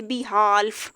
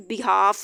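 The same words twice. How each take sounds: First: Behalf with the l said; l sounded wrongly. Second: Behalf with the l dropped; silent l. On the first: Teacher shows the wrong behalf to avoid. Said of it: "ये नहीं कह सकते". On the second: Teacher gives the right behalf with silent l. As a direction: say behalf as beháf. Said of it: "हम इसको पढ़ेंगे". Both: Shown as a demonstration.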